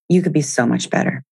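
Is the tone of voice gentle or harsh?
harsh. It is said in a harsh, critical tone. The speaker is scolding themself. The speaker calls it wrong. "not a great tone"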